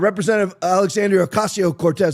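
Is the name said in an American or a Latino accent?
American. The name is said in a plain American accent.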